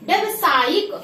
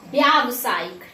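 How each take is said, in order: First: "व्यावसायिक" opening on short byav; wrong short vowel. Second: "व्यावसायिक" with long byaav; corrected long vowel. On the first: Teacher shows students the mistake, "व्यावसायिक" with short first vowel. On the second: Teacher corrects students, "व्यावसायिक" as byaav-saayik. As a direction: stretch the first aa of "व्यावसायिक". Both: Shown as a demonstration.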